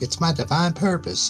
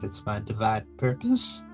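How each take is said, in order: First: The voice falls at the end, sounding sure. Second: The voice rises at the end, sounding unsure.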